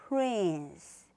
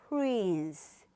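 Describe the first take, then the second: No difference in how they are said.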